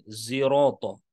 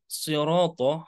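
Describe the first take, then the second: First: The word begins with a buzzing z sound. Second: The word begins with a heavy emphatic s. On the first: "bisa di- dibaca dengan menggunakan zai" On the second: "huruf so, sode"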